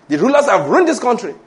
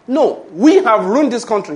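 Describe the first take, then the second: First: The usual complaint, "ruined" leaned on; blaming the rulers. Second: Correcting the blame onto "we"; stress on WE. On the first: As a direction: stress on "ruined" in "The rulers have ruined this country". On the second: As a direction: hit the word "we" firmly. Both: Shown as a demonstration.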